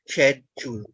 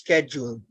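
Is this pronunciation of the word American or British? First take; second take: British; American. First: The word is said in a British accent. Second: The word is said in an American accent. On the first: "the British and the Emiratis say schedule" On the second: "Americans pronounce it as schedule"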